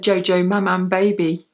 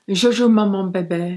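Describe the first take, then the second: First: The name is said with plain English vowels. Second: The name is said with French-style vowels. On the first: "or you just kind of say" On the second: "Is that how you say it?"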